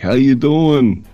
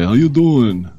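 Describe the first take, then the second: First: It is said in his normal voice. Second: It is said in a Joey impression.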